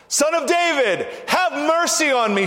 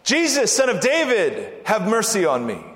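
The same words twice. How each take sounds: First: High, insistent shouted plea; ringing high cry for mercy; shouting out. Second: Raised, pleading call; crying out. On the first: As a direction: shout it out, pleading to be heard over a crowd. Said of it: "He shouted all the more". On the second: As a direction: call out for mercy, pitch falling away as it ends. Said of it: "the man cried out". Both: Acted.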